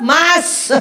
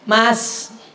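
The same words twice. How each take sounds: First: The call is pitched extremely high and loud. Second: The call is pitched slightly higher than normal.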